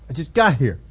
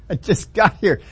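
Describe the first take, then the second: First: Lower, put-upon complaint; exasperated Moses. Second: Slower, chuckling through it; laughing repeat. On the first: Moses protesting to God, lower and put-upon. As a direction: whine it, just arrived. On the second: Preacher repeating Moses' line, chuckling slowly. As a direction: savour the joke with a laugh. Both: Acted.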